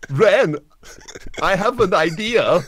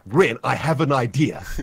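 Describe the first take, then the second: First: It is said imitating another person's accent. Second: It is said in the speaker's usual accent.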